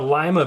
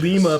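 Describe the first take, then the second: First: It is said with an American English pronunciation. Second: It is said with a native Spanish-style pronunciation. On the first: This is the usual English way of saying it. "we say a lima bean" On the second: This is how the name is said where it comes from. "but it's Lima, Peru"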